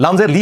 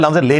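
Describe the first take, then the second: First: लाम जेर ली with ली as a long "lee"; correct lee. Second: लाम जेर ले with ले as "lay"; wrong lay. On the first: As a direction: spell it out, ending on "ee" in ली. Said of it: "लाम जेर ली होता है". (लाम जेर ली, साफ "ई" के साथ) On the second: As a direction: show the mistake, ending on "ay" in ले. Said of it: "लाम जेर ले नहीं होता". (लाम जेर ले, मजहूल "ए" के साथ) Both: Shown as a demonstration.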